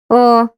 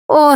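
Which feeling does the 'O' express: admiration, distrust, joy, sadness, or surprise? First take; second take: distrust; joy. First: The 'O' sounds doubtful. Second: The 'O' sounds joyful. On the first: Something is hard to believe. "А ось він не довіряє" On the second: Something long awaited has happened. "Радіє"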